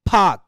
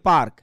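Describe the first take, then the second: First: The word is said with no r sound. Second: The word is said with an audible r. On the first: This is how native test speakers say it. "ওটা ওর উচ্চারণ করছে কি ফাক" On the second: This is how learners read it. "আপনি তো পড়ছেন এইভাবে"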